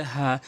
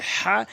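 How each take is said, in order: First: Easy breath h in "হা"; light h. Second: "হা" squeezed from mid-throat; strong rasped h in "হা"; pressed h. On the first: Teacher contrasting for learners, light "হা". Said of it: "এটি হচ্ছে হা". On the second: Teacher contrasting for learners, pressed "হা". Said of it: "হাটি চাপ দিয়ে বলতে হবে". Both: Shown as a demonstration.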